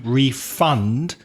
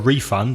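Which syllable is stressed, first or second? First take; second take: second; first. First: The stress is on the second syllable. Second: The stress is on the first syllable. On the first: It is used as a verb. "So the stress changes to the second syllable" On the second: It is used as a noun. "that's the noun"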